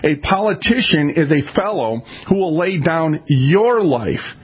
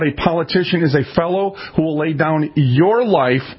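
First: The sentence is spoken slowly and deliberately. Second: The sentence is spoken at a normal pace.

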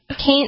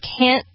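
First: The word is said in a southern American accent. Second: The word is said in a general American accent.

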